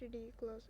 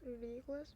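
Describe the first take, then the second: First: Said in the usual way. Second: "Ridiculous?" with a rising end; echo question. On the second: A narrator's reading. Friend echoes the word as question.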